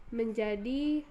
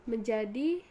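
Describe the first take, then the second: The two takes are said the same way.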